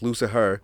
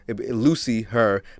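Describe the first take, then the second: First: The name is said as one ordinary word. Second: The name is split into two parts. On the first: This is the usual way of saying it. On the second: The name refers to a woman.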